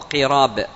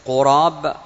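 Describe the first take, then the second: First: The first vowel is a front i sound. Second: The first vowel is a rounded u sound. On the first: "وبالكسر" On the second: "بالضم"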